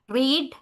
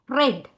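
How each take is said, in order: First: The word is said in its present-tense pronunciation. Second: The word is said in its past-tense pronunciation. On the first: It is the base form of the verb. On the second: It is the past form of the verb.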